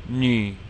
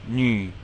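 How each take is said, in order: No difference in how they are said.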